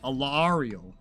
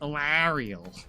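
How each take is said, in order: First: It copies the game's own pronunciation. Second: It is said with a New York accent. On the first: "I want to copy Alariel" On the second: "my New Yorker, uh, like, brain just goes"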